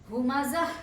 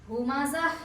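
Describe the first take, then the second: No difference in how they are said.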